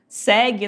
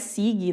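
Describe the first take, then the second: First: The first vowel sounds like 'eh'. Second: The first vowel sounds like 'ee'. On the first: The speaker calls it right. "aqui tem um E" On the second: The speaker calls it wrong. "Não é sigue"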